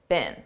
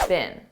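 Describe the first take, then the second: First: The word is said weak and unstressed. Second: The same.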